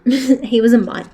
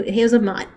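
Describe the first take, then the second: First: Louder, laughing "He was a mutt."; laughing repeat, stressing that the dog was a mutt; laughing punchline. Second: Said in the usual way. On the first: Real, not acted.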